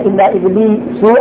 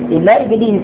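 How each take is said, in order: First: The name ends with a u vowel. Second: The name ends with an a vowel. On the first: The name follows the preceding noun as a substitute. "على الإتباع" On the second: The name is read as an exception in the accusative. "هذا عربي جيد"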